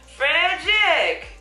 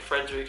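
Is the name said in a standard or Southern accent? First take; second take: Southern; standard. First: The name is said in a Southern accent. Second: The name is said in a standard accent.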